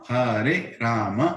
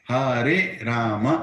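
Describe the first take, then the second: No difference in how they are said.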